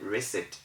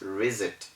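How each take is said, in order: First: The middle consonant is a hissing S sound. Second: The middle consonant is a buzzing Z sound. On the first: The speaker calls it right. "We maintain the ordinary S sound for it" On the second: The speaker calls it wrong. "reset should have been mentioned as reset"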